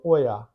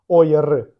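First: The word ends in an open a-like vowel. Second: The word ends in a consonant r. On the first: The speaker calls it right. "а зробіть його більш відкритим" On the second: The speaker calls it wrong. "не робіть оєр, не робіть рота плоским, щоб зробити літеру р"

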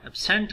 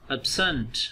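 First: The second vowel is a full vowel. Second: The second vowel is a reduced schwa. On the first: The speaker calls it wrong. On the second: The speaker calls it right.

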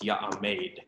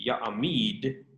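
First: The last vowel sounds like 'ay'. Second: The last vowel sounds like 'ee'. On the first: "that hirik yod becomes a seire" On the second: "instead of ya'amid"

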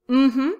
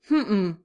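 First: The pitch goes up across the sound. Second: The pitch goes down across the sound. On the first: It means yes. "the positive sounds go up" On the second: It means no. "the negative sounds go down"

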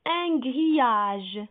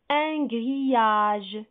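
The two takes are said the same way.

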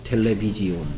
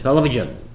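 First: The ending is spelled out as 'ji-on'. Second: The ending is a single 'jun' syllable. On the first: It is a spelling aid for remembering the letters. "마음속으로 소리 나는 대로 I는 무조건 E 소리 난다" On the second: It is the way the word is read aloud. "텔레비전 이렇게 멋있게"

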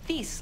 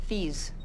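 First: The name ends in a short hissing s sound. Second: The name ends in a buzzing z sound. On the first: The speaker calls it right. "with a short S sound ... like peace" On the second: The speaker calls it wrong. "What did I say?"

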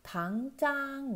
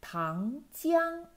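First: The second syllable has no i glide. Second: The second syllable has a clear i glide. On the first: The speaker calls it wrong. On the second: The speaker calls it right.

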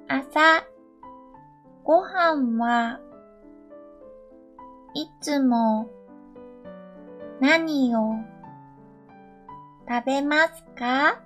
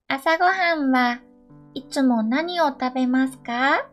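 First: The sentence is spoken at a slow pace. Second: The sentence is spoken at a normal pace. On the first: "2 回目はゆっくり話します。" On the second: "2 回言います。"

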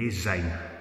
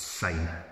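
First: The word begins with a z sound. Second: The word begins with an s sound. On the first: The speaker calls it wrong. "nae Zine, like Zimbabwe or zebra. That's totally wrong" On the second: The speaker calls it right. "pronounced with an S"

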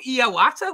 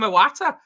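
First: The name sounds like Hiawatha. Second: The name does not sound like Hiawatha. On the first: The speaker calls it wrong. "not Iwata. Like, he's like Hiawatha" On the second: The speaker calls it right. "We all call him Iwata"

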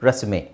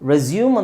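First: The word ends with a 'may' sound. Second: The word ends with a 'yoom' sound. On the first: "ಏಕಾರ ಅಲ್ಲಿ sound ಬರುತ್ತೆ" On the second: "ರೆಸ್ಯೂಮ್ ಅಂತಲೂ ಹೇಳ್ತಾರೆ"

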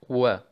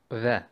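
First: The sound uses both lips, not the teeth. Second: The sound uses the upper teeth on the lip. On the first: The speaker calls it right. "Man verbindet fast die Lippen. Man benutzt nicht die Zähne" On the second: The speaker calls it wrong. "Bei den Türkischen, die sagen ve"

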